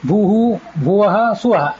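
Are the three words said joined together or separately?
separately. The three words are said separately, apart. Each utterance is recited individually. "ಮೂರನ್ನು ಪ್ರತ್ಯೇಕವಾಗಿ ಹೇಳಿದರೆ ಅದು ಪ್ರತ್ಯೇಕ ಉಚ್ಚಾರ ಆಯಿತು"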